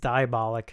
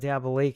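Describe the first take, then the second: First: It is said like 'diabolic'. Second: It is said like 'Diablo Lake'. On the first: The speaker calls it right. "So it is it's diabolic" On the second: The speaker calls it wrong. "I did mispronounce it"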